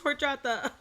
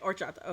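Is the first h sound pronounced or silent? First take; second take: pronounced; silent. First: The first h sound is pronounced. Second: The first h sound is silent. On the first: The speaker calls it wrong. "my bad, my bad" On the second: The speaker calls it right. "don't pronounce the H"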